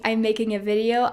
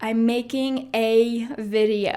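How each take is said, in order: First: The word 'a' is light and unstressed. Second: The word 'a' is strongly stressed. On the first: The speaker calls it right. "instead of saying" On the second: The speaker calls it wrong. "I'm really emphasizing this word a little bit too much"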